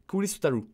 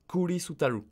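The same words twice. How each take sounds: First: The phrase is said quickly, syllables run together. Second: The phrase is said slowly, syllable by syllable.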